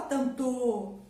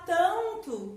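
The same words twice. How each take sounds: First: "tanto" wrongly said tan-TÔ; stress on last syllable of tanto. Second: "tanto" said TAN-to, first syllable strong; stress on first syllable of tanto. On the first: Teacher showing how nobody says it, "tanto" as tan-TÔ. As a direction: move the weight onto a drawn-out final TÔ in "tanto". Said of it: "você não fala tanto". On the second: Teacher showing how tanto is really said, stress on TAN in "tanto". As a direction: punch the TAN in "tanto", let -to fall away. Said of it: "Porque você fala tanto". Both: Shown as a demonstration.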